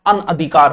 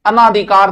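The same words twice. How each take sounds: First: अनअधिकार with short a after n; correct pronunciation. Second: अनाधिकार with long naa; wrong pronunciation. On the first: Teacher giving the correct word, careful pronunciation. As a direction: lower अनअधिकार, no long naa. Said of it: "अनअधिकार होता है". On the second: Teacher showing students the mistake, mispronounced demo. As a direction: say अनाधिकार, stretching ना. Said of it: "अनाधिकार नहीं होता". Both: Shown as a demonstration.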